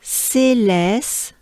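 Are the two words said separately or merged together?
merged. The two words are run together smoothly.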